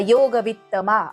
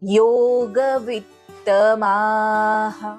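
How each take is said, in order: First: The word ends on a plain vowel, no h. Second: The word ends with an audible breathy h sound. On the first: The speaker calls it wrong. "असं बोलून सोडायचं नाही" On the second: The speaker calls it right. "माहा शेवटी जो विसर्ग दिलेला आहे तो प्रॉपर उच्चार करायचा"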